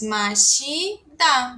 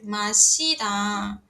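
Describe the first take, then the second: First: Mashida, slow and drawn out; Korean word. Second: Mashida, slow and even; Korean word. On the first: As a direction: say Mashida slowly, syllable by syllable. (Mashida devagar, sílaba por sílaba) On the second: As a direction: repeat Mashida slowly to copy. (Mashida repetido devagar) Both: Shown as a demonstration. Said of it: "verbo beber".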